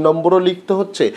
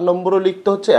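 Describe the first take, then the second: No difference in how they are said.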